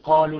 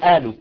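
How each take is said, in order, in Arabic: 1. تبدأ الكلمة بصوت q عميق. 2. تبدأ الكلمة بهمزة. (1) "بدلا ما نقول قالوا" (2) "يلفظون القاف بهمزة"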